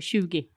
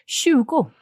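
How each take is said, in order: First: The word ends with an 'e' sound. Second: The word ends with an 'o' sound.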